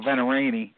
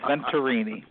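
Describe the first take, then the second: First: The T sound in the middle is dropped. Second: The T sound in the middle is pronounced. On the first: The speaker calls it wrong. "he used to get so pissed at me for not pronouncing the T" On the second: The speaker calls it right. "yep, it's Venturini"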